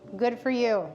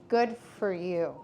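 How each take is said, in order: First: It sounds warm and sincere. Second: It sounds spiteful and sarcastic.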